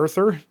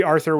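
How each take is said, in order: First: Arthur said as "Erthur", with an E sound; altered first vowel. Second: Said in the usual way. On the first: Shown as a demonstration. Speaker trying out a future spelling of a name, Arthur pronounced "Erthur". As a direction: swap the A of Arthur for an "er". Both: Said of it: "like an E or".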